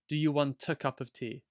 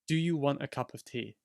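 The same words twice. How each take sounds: First: A clear T links into the following vowel. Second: The T in 'want' is a glottal stop. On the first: "So the T becomes part of the A" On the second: "the T is not really pronounced, it's that glottal stop again"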